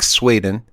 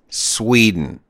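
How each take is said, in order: First: It is said with a Swedish accent. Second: It is said with an American accent. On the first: "they'll say something like Sweden, and you're like, oh, that's not American" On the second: "the American way of saying Sweden is Sweden"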